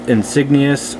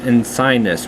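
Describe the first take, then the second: First: The G is sounded in the word. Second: The G is silent in the word. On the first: "a lot of people pronounce it" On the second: "where the G is silent"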